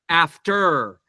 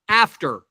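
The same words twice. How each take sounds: First: The stress is on the second syllable. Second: The stress is on the first syllable. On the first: The speaker calls it wrong. "We don't say father, sister, after" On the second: The speaker calls it right. "It's father, sister, mother, after"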